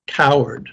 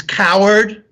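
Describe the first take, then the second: First: Said in the usual way. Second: High-pitched, angry shout; angry scream. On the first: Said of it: "He receives the answer". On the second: A narrator's reading. Son angered at the response, angry scream. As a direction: hurl it at the unseen voice. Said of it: "he screams".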